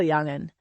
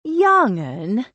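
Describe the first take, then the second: First: Said in the usual way. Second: "Young 'un" thrown back, rising in pretend outrage; mock indignation. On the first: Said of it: "You did well". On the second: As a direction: toss "Young 'un" back with playful offence. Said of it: "Lily said in mock indignation".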